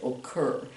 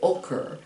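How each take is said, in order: First: The stress is on the second syllable. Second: The stress is on the first syllable. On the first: The speaker calls it right. "if it happens on the second syllable, occur, ... we say occur" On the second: The speaker calls it wrong. "we don't say occur"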